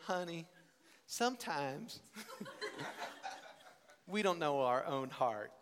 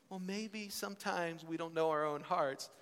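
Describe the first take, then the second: First: Put-on mother's Southern accent. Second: Said in the usual way. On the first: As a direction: imitate mom's sage Southern accent. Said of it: "she goes into a stronger Southern accent". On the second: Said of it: "And if she says".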